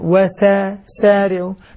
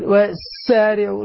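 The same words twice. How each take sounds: First: The s sound has a moderate, light hiss. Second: The s sound has an exaggerated, long whistling hiss. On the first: The speaker calls it right. "ولاحظ وسارعوا" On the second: The speaker calls it wrong. "ما أقول وسارعوا، ما في داعي للمبالغة في الصفير"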